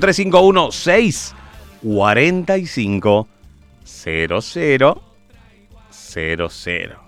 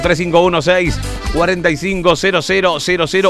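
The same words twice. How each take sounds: First: The number is said more slowly. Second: The number is said at a faster pace.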